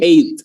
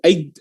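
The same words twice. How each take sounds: First: No g sound, ending in a popped t. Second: A g sound is pronounced before the final t. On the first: The speaker calls it right. "cara baca yang benar itu eight" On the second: The speaker calls it wrong. "yang masih sering salah"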